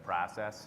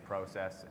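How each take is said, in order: First: It is said with a non-Canadian pronunciation. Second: It is said with a Canadian pronunciation. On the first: "instead of process" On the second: "I am Canadian, so my accent will come through... I say process"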